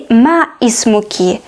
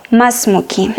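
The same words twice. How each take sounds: First: "ما اسمك" as two words, ma ismuki; hamza pronounced. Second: "ما اسمك" run together as masmuki; hamza dropped. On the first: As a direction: sound the i after ma in "ما اسمك". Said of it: "So we don't say". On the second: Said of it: "we should say". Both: Shown as a demonstration.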